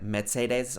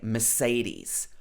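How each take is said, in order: First: It is pronounced in a German style. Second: It is pronounced in a British style. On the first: "It may be like something like Mercedes or something like that" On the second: "in uh, the U K, we would say Mercedes"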